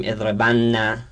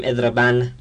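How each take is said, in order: First: اضربن said ezrebanna, with a doubled nn and a final a; اضربن with the n held long and then opened by a short a; heavy nun form. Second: اضربن said ezreban, ending on a still, unvowelled n; اضربن with a short, silent final n, no doubling; light nun form. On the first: Teacher shows the heavy doubled nun, nn then a. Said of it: "یعنی تشدید داره". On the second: Teacher shows the light nun of emphasis, short final n. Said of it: "یعنی همون ساکنه". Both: Shown as a demonstration.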